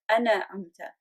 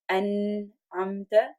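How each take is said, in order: First: A vowel is added after the n sound. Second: No vowel follows the n sound. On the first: It sounds like two words, starting with 'I'. The speaker calls it wrong. "what happens is we turn it into ana amta" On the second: It is one word meaning 'you have blessed'. The speaker calls it right. "we have to say as an amta"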